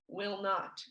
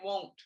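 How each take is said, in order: First: It is said as two full words. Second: It is said as one contracted word. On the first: "which doesn't sound like will not" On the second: "people often use a lot of contractions"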